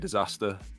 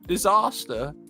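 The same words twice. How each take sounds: First: It is said with a northern English accent. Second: It is said with a southern English accent. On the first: "since I'm from the north, I, I say disaster" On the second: "she's pronouncing it in the, the southern English way"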